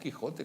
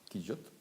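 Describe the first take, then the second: First: The middle consonant is a harsh throaty sound. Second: The middle consonant is a soft y-like sound. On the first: This is how the name is said today. "nosotros lo pronunciamos Quijote con J" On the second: This is how the name was once said. "Quillote, sería la J"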